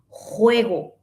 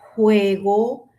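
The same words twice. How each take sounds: First: The j is a rough scraping sound. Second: The j is a soft puff of air. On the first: This is the Spanish way from Spain. "tiene sonido, aparte del aire" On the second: This is the Latin American way. "solamente es aire"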